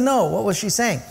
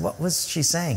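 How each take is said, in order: First: Higher, firmer repeated question; insistent question. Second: Said in the usual way. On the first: Retold or imitated. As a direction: press the guide who is dodging the question. Pressing the guide for an answer.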